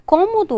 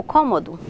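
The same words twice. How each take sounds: First: Cômodo with a closed stressed ô; closed vowel. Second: Cômodo with an open stressed ó; open vowel. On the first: Teacher offering both forms, cômodo with closed ô. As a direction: keep the first o of cômodo closed. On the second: Teacher offering both forms, cômodo with open ó. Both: Shown as a demonstration. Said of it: "com o som mais aberto".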